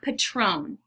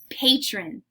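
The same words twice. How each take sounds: First: It is said like the tequila brand name. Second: It is said as the plain English word. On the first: The speaker calls it wrong. "not patron. This is not a fancy tequila" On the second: The speaker calls it right. "I say patron"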